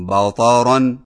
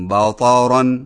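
Both takes have the same delivery.

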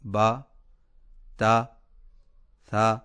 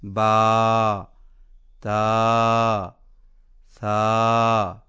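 First: The long vowels are cut too short. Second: The long vowels are stretched too long. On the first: "یوں کمی کرنا" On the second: "یوں زیادتی کرنا"

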